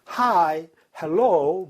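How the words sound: It is said in a coy, exaggerated, drawn-out way. It mimics women flirting with soldiers. "되게 간드러지고 과장되는 방식으로 영어 발음했어요"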